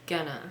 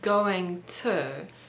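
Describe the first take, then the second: First: The two words are run together into one. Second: Both words are said separately and fully. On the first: "it often sounds like gonna" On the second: "when we say going to"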